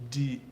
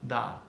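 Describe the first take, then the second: First: The vowel is a mid 'eh' sound. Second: The vowel is an open 'ah' sound. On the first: "I normally hear something like uh, de" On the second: "I don't normally hear da with an ah sound"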